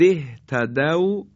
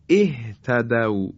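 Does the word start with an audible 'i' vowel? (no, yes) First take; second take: no; yes. First: The word runs on with no opening vowel. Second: The word begins with a short 'i' vowel.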